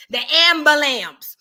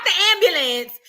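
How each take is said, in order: First: "ambulance" said slowly as "am-buh-lamps"; mispronounced ambulance. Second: Said in the usual way. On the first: Shown as a demonstration. Correcting listeners on the caller's word, "ambulance" mangled into "ambulamps". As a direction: say "ambulance" with a loud, drawn-out "lamps" ending. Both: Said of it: "Not the ambulance".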